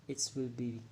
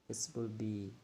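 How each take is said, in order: Both takes have the same delivery.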